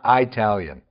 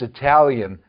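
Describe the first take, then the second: First: The first vowel is long. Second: The first vowel is short. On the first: The speaker calls it wrong. "not Italian ... lengthen the initial vowel of an ethnic group to insult them" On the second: The speaker calls it right. "it's Italian"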